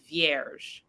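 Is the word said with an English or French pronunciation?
English. The word is said with an English pronunciation. "all of the Anglos say vierge"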